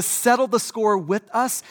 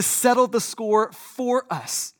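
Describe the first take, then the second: First: "with" picked out against what follows; stress on with. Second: "for" set apart and emphasized; stress on for. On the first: Preacher contrasting two purposes of Jesus' coming, stress on "with". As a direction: lean on "with" to set up a contrast. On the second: Preacher correcting why Jesus came, stress on "for". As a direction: land firmly on "for" as the answer. Contrasts with us and for us. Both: Real, not acted.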